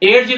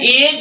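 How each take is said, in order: First: A separate D sound is heard. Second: No separate D sound is heard. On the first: The speaker calls it wrong. "एज नहीं है" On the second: The speaker calls it right. "यह एज है"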